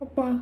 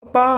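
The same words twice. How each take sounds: First: A small, hesitant call; timid soft call. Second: Raised-voice call for father; louder call. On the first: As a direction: quietly call for dad. (மெதுவாக அப்பாவைக் கூப்பிடுதல்) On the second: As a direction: call out to dad to be heard. (சத்தமாக அப்பாவைக் கூப்பிடுதல்) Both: Acted. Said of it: "இல்ல நம்ம தான் மெதுவா கூப்பிடுறோமா".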